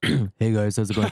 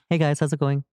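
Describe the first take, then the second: First: It is said in a deeper, masculine voice. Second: It is said in a light, effeminate voice.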